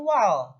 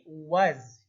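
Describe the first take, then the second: First: The syllable ends with a clear L sound. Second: The syllable ends with a Z sound. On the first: The speaker calls it wrong. "bukan wal" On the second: The speaker calls it right. "tapi waz"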